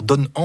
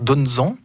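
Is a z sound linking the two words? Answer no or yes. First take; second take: no; yes. First: The two words are said with no linking sound. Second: A z sound links the two words. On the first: The speaker calls it wrong. "on va pas dire donne en" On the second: The speaker calls it right. "on va dire donne-en"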